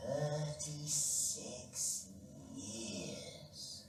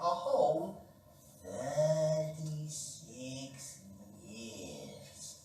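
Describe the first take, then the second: First: Thirty-six stretched very slowly; slow emphasis. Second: Thirty-six drawn out very slowly; slow emphasis. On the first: Storyteller to children, stretching thirty-six slowly. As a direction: drag out thirty-six for effect. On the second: Storyteller repeating the number, very slow. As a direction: stretch thirty-six again, savouring it. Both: A narrator's reading.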